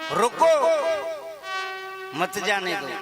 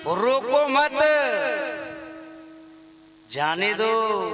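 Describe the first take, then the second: First: The pause comes after the first word. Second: The pause comes after the word मत.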